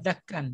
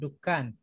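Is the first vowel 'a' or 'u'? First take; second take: a; u. First: The first vowel is 'a'. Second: The first vowel is 'u'. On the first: The speaker calls it wrong. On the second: The speaker calls it right.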